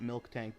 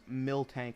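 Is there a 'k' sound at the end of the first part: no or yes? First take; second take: yes; no. First: The first part is said as 'milk', with k. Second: The first part is said as 'mill', no k. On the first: The speaker calls it wrong. "not milk tank" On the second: The speaker calls it right. "it's pronounced mill tank"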